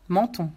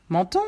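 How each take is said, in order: First: « Menton » en affirmation, ton descendant; réponds « Menton » en laissant tomber la voix; réponse affirmative. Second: « Menton » en question, ton montant; répète « Menton » en montant, plus fort; reprise interrogative. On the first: Réponse, puis reprise en question. (« Menton » posé comme une réponse) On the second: Le pompiste répète la réponse en question. (« Menton » lancé fort comme une question) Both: Acted.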